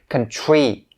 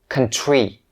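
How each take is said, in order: No difference in how they are said.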